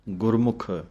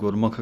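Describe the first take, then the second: First: The word ends with a short u sound. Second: The word ends without a short u sound. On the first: The speaker calls it right. "ਮੰਮੇ ਔਂਕੜ ਦੀ ਆਵਾਜ਼ ਦੇ ਕੇ ਬੋਲਣਾ ਹੈ" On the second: The speaker calls it wrong. "ਕਈ ਸਿੱਧਾ ਹੀ ਗੁਰਮੁਖ ਕਹਿ ਜਾਂਦੇ ਹਨ"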